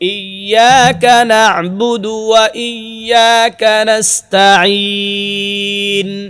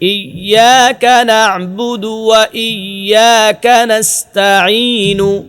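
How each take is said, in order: First: The last word ends on n after a lengthened vowel. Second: The last word ends with a short u vowel. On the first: The reciter stops to take a breath here. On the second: The recitation continues without stopping.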